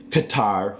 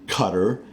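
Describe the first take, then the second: First: Qatar as kuh-TAR; avoided pronunciation. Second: Qatar as CUTTER; his chosen pronunciation. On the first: Naming what he won't say, Qatar as kuh-TAR. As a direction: stress the second syllable of Qatar. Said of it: "I don't say". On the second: Telling viewers his way, Qatar as CUTTER. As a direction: stress the first syllable of Qatar. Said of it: "I say". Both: Shown as a demonstration.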